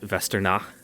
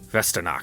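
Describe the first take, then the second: First: The name ends without a k sound. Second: The name ends with a hard k sound. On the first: The speaker calls it right. "you don't pronounce the hard like at the end" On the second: The speaker calls it wrong.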